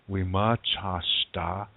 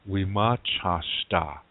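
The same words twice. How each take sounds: Both takes have the same delivery.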